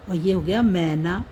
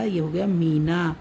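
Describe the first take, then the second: First: मैना said with an open ai, like mai-na, not mee; open ai in Maina. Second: मीना said with a long, clear ee in the first syllable; long ee in Meena. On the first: (मैना में खुली ऐ की आवाज़) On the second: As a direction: stretch the ee of मीना, mee-na. (मीना में लंबी ई साफ़ बोलें) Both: Shown as a demonstration. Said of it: "तो कितना अंतर होता है इसमें".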